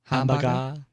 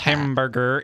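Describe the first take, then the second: First: The R sounds are dropped. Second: The R sounds are clearly pronounced. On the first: "in the UK, they barely recognize that the letter R exists" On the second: "we use hard R's. If you ever listen to a British person do an American accent"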